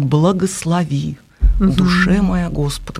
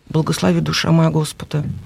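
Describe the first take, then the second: First: It is voiced fully with open, resonant sound. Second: It is muttered quietly under the breath. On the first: The speaker calls it right. "у него получается «благослови»" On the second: The speaker calls it wrong. "Вот так себе под нос"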